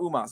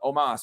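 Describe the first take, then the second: First: The name begins with an 'oo' vowel. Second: The name begins with an 'oh' vowel. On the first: The speaker calls it wrong. "I don't know why I thought Umas" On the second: The speaker calls it right. "but Omas, right?"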